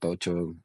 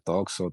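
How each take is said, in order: First: The middle consonant is a 'ch' sound. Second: The middle consonant is a 'ks' sound. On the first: It is the way local people say the name. "La gente de acá como que ya me dice más tocho" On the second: It follows the way the name is written. "se escribe así, así se debería pronunciar"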